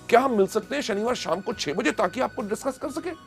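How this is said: It is said with lively excitement.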